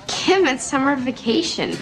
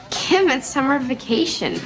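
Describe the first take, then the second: No difference in how they are said.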